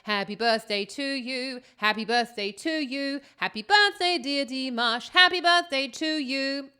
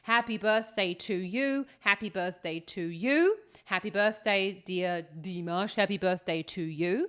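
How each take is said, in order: First: It is spoken while holding musical pitches. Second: It is spoken with a natural speech melody.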